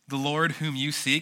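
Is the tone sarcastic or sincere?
sarcastic. It is read in a mocking, sarcastic tone. The listeners do not really seek him.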